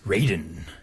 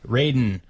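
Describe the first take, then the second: First: It is said in a Mortal Kombat announcer voice. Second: It is said in his normal voice.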